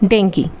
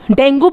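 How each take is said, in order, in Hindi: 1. यह शब्द 'ee' ध्वनि पर खत्म होता है। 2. यह शब्द 'oo' ध्वनि पर खत्म होता है। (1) "इसकी जो करेक्ट प्रोनाउंसिएशन है दैट इज़ डेंगी" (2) "डेंगू बोलते थे इसको"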